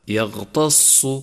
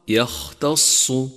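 First: The middle consonant is a voiced gh sound. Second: The middle consonant is a voiceless kh sound. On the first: The speaker calls it wrong. "إذا أهملت همس الخاء صار غينا، أي هكذا يغتص" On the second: The speaker calls it right. "والصواب يختص"

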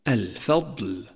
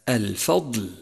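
Both takes have the same delivery.

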